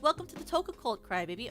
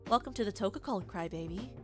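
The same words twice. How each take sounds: First: It is said in the speaker's ordinary voice. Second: It is said in a put-on character voice.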